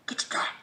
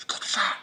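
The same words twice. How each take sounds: First: Unvoiced whispered Get the shot. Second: Said in the usual way. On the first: Shown as a demonstration. Vlogger repeating the vaccine slogan, whispered.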